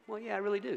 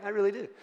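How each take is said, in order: First: Higher, cocky self-assured yes; smug answer. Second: Higher, cocky, fuller-voiced I really do; smug repeat. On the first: Retold or imitated. Answering a critic with a mock-proud yes. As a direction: brag it back with a grin. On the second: Repeating the boast to the congregation, mock-proud. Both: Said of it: "y'all ever answered like that?".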